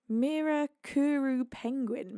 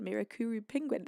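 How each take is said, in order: First: Mirakuru Penguin sounded out slowly, syllable by syllable; careful first try at a name. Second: Mirakuru Penguin said again softer and quicker, settled; quiet confirming repeat. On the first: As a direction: spell out Mirakuru slowly and unsure, stress on MI. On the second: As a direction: murmur Mirakuru Penguin to yourself, falling at the end. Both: Shown as a demonstration. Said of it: "how do I say this?".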